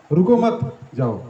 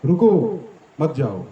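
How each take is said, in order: First: Slow, "रुको मत" joined, then "जाओ"; pause after मत. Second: "रुको" alone, a pause, then "मत जाओ"; pause after रुको. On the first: Speaker showing devotees the reversed meaning, slow with break after "मत". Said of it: "मैं कैसे उस चीज़ को बोल रहा हूँ". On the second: Speaker repeating the demo for devotees, pause after "रुको". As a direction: split it after "रुको" to mean stay. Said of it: "तीन शब्द क्या हैं". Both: Shown as a demonstration.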